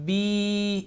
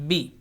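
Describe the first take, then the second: First: The vowel is stretched out long. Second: The vowel is short and clipped. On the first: "इसी को मैं थोड़ा सा खींचूँ तो ये बा खड़ी ज़ेर बी बन जाएगा" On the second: "बा के नीचे ये मैं ज़ेर लगा दूँ तो बाज़ेर बी"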